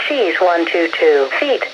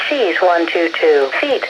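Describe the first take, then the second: No difference in how they are said.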